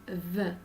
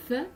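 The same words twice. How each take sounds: First: "th" buzzed with tongue tip between the teeth; voiced "th", as at the start of "this". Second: "th" as a voiceless breath between the teeth; "th" with tongue tip out, throat silent; unvoiced th. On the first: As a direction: let the throat vibrate on "th". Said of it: "the is voiced". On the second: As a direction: blow air over the tongue tip for "th", no voice. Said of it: "th is unvoiced". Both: Shown as a demonstration.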